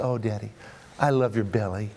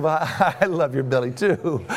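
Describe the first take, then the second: First: Put-on soft, low childlike sincerity; retold tender affection. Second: Amused comeback with a laugh breaking in; laughing retold reply. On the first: Daughter to dad, hand on his tummy, retold tenderly. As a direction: murmur it fondly as a retold endearment. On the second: Dad answers daughter's belly compliment, retold with a laugh. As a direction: chuckle through the words.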